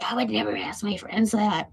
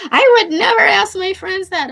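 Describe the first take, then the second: First: A mocking, put-on imitation of the miffed friend; mock mad friend. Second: High, loud huffy retelling of the friend; indignant friend. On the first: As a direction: parrot her line in a sneering voice. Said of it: "She was, like, mad at me". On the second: Retold or imitated. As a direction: throw out her refusal, high and loud. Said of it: "And she's like".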